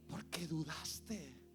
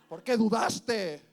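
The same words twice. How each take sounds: First: It sounds warm and smiling. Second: It sounds angry and scolding.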